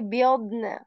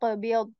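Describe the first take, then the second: First: The word ends with a faint n sound. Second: The word ends with no n sound. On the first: The speaker calls it right. "very small sound of the letter noon" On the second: The speaker calls it wrong. "I'm not totally skipping that and saying yaq biyad"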